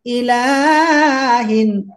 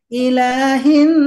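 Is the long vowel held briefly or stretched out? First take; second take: stretched out; briefly. First: The long vowel is stretched well beyond two counts. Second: The long vowel is held for two counts. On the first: The speaker calls it wrong. "Jangan ilahin. Lah, nggak boleh" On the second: The speaker calls it right. "Dua harokat"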